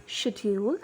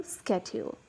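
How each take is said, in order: First: "schedule" opening with a soft SH sound; British "schedule", SH at the start; British pronunciation. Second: "schedule" opening with a hard SK sound; American "schedule", SK at the start; American pronunciation. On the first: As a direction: say "schedule" the British way, as SHED-yool. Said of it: "pronounce it in British English". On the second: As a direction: say "schedule" the American way, as SKED-yool. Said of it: "pronounce the word in American accent". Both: Shown as a demonstration.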